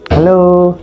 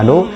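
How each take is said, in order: First: It is said in a flirtatious, coaxing tone. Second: It is said in a plain, neutral tone.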